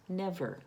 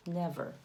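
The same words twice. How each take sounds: The two takes are said the same way.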